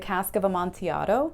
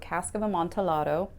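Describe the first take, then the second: First: The double L is said the Spanish way. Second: The double L is said as an L sound. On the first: The speaker calls it wrong. "I want to pronounce it like it's Spanish" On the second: The speaker calls it right. "you're supposed to pronounce the L's"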